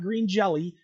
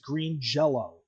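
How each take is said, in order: First: The last word ends with an 'ee' sound. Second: The last word ends with an 'oh' sound. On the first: The speaker calls it wrong. "It's not green jelly" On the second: The speaker calls it right. "that's technically how you pronounce it correctly"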